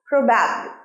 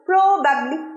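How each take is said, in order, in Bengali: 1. জোরটা দ্বিতীয় সিলেবলে। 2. জোরটা প্রথম সিলেবলে। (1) "প্রোতে স্ট্রেসটা পড়ছে না কিসে পড়ছে ব্যাব" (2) "probably না"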